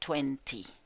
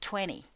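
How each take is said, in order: First: It is said in a British accent. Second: It is said in an American accent. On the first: "británico es decir veinte" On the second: "en inglés americano de verdad se dice veinte"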